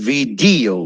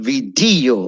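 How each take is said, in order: The two takes are said the same way.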